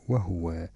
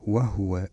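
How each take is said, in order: First: The h sound is followed by a u vowel. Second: The h sound carries no vowel after it. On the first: This follows the reading tradition of Hafs. "فيضم الهاء هكذا" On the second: This follows one set of reading traditions. "يسكنون الهاء عندما تسبق بواو أو فاء أو لام هكذا"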